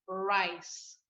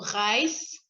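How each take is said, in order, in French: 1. Le R se dit comme un R anglais. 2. Le R se dit comme un R français. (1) "Donc, ce sera" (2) "on ne va pas dire"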